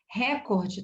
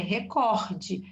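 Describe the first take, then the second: First: "Recorde" stressed on first syllable, open RÉ. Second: "recorde" stressed on the middle syllable COR. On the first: Teacher showing the common mistake, "Recorde" stressed on first syllable RÉ. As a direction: hit an open RÉ at the start of "Recorde". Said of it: "recorde tá errado". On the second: Teacher giving students the correct word, "recorde" stressed on COR. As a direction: land firmly on COR in "recorde". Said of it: "A sílaba tônica é no cor". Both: Shown as a demonstration.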